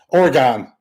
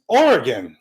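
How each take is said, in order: First: The name is said the way outsiders say it. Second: The name is said the way locals say it. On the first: The speaker calls it wrong. "when they hear you say Oregon" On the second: The speaker calls it right. "everybody in Oregon just goes, no, dude, it's Oregon"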